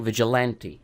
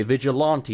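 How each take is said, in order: First: "vigilante" with a flat A, as in "ant"; American pronunciation. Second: "vigilante" with an AH in the third syllable; English pronunciation. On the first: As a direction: say "vigilante" as vij-i-LAN-tee. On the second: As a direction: say "vigilante" as vij-i-LAHN-tee. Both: Shown as a demonstration. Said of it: "I said it the frickin' English way".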